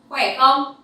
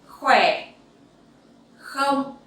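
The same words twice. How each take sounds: First: It is said at a faster pace. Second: It is said at a slower pace.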